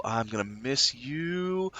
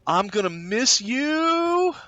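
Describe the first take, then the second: First: Softer, slower mock goodbye to old boots; hushed pretend goodbye, slowly; soft mock farewell. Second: Higher, slow dramatic mock goodbye; hammed-up farewell. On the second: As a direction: wail it out like a silly parting.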